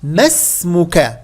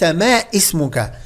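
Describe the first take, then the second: First: ما اسمك slow, run together as me-smuka, the alif silent; linked alif wasl. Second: ما اسمك with a glottal stop, said ma ismuka; the mistake: pronounce the alif in ما اسمك; wrong hamza. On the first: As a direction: join ما اسمك with no hamza. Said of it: "فأقول". (ما اسمك بوصل الألف دون همزة) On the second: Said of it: "ليس". (ما إسمك بنطق الهمزة خطأ) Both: Shown as a demonstration.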